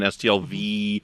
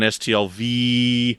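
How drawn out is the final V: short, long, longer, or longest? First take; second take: long; longest. First: The final V is drawn out somewhat longer. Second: The final V is drawn out the longest. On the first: It stands for the second year. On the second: It stands for the fourth year.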